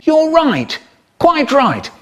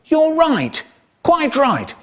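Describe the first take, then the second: First: Much higher, loud and emphatic; prim posh approval; pompous high voice. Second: Much higher, emphatic; prim posh approval; pompous high voice. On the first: Retold or imitated. Man's pompous agreement. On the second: Acted. Pompous agreement repeated.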